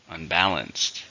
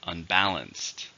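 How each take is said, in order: First: Un-BAL-anced, repeated model; second model of "Unbalanced" stressing BAL; stress on second syllable. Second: Un-BAL-anced, slow model; teacher modelling "Unbalanced" with the middle syllable stressed; stress on second syllable. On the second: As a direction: say "Unbalanced" slowly, leaning on BAL. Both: Shown as a demonstration. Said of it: "Stress is on the second syllable".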